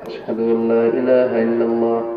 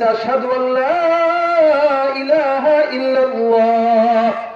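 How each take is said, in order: First: It is said in a small, quiet voice. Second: It is called out in a loud voice. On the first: The speaker is afraid of being overheard. "ছোট্ট আওয়াজে বলতেছে" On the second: The speaker has found courage and declares it openly. "এবার ডাক দিয়া বলতেছে"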